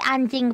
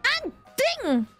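First: It is said calmly and plainly. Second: It is said loudly with full force.

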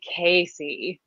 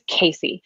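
First: The name is said slowly and heavily. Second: The name is said quickly and lightly. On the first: "a totally different meaning or a totally different rhythm to it" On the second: "It's a little fast. It's a little light. It's a little zippy"

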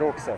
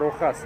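First: The middle consonant is a ks sound. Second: The middle consonant is a soft h sound. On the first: The speaker calls it wrong. "не Roxas" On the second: The speaker calls it right. "правильное произношение рынка Rojas"

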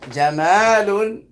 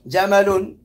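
First: The vowel after the m is long. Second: The vowel after the m is short. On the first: The word means beautiful. "if you prolong it too much, it changes the meaning. ... that means beautiful" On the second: The word means camel. "that means camel"

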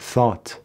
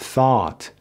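First: The vowel is short and clipped. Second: The vowel is long and drawn out. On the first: The speaker calls it wrong. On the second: The speaker calls it right.

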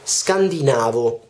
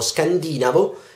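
First: The stress falls on the syllable 'na'. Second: The stress falls on the syllable 'di'. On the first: The speaker calls it right. "In realtà si dice scandinavo" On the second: The speaker calls it wrong. "noi tutti diciamo scandinavo"

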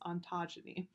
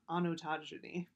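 First: No extra vowel sound follows the first syllable. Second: An extra vowel sound follows the first syllable. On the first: The speaker calls it right. "but it's ontogeny" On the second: The speaker calls it wrong. "I always pronounce that incorrectly. I always want to go onotogeny"

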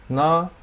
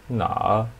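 First: The pitch stays high and level. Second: The pitch dips low, then rises.

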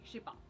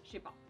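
First: The phrase is shortened, ne is dropped. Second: The phrase is shortened, ne is dropped.

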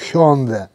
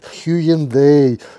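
First: The name is said the Korean way. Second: The name is said in a Russianized way. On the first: This is the official form of the name. The speaker calls it right. "Официальное произношение вот этого названия Hyundai по корейскому языку" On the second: This is a distorted form of the name. The speaker calls it wrong. "Им режет слух, когда произносят Hyundai"

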